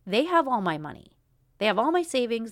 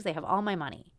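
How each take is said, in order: First: Louder, pressed out in frustration; They have all my money, hit hard and loud; fed-up outburst about money; frustrated emphasis. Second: Said in the usual way. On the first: Real, not acted. Venting about clinic costs.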